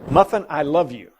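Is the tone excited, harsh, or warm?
warm. It is said in a warm, gentle tone. The listener feels loved and content. "she would wag her tail"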